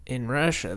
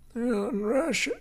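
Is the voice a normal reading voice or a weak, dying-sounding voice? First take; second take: normal; dying-sounding. First: It is read in a plain, ordinary voice. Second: It is said in a weak, strained voice. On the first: "that's not his voice at all" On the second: "it's almost like he's dying"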